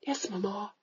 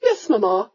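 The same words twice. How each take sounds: First: Soft, dutiful yes; hushed, meek reply; meek daughter. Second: Mock-dutiful singsong yes; mild mocking mimicry; mocking imitation. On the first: Retold or imitated. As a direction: mumble it like an obedient girl. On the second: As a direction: parrot her daughter's meek reply. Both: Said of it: "she says".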